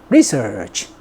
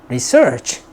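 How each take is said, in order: First: The stress is on the first syllable. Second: The stress is on the second syllable. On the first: It is used as a noun. "명사일 때는 앞을 강하게" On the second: It is used as a verb. "동사일 때는 뒤를 강하게"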